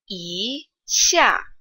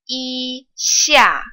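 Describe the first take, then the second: First: The first syllable rises in pitch. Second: The first syllable is high and level. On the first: "It changes from the first tone to the second tone"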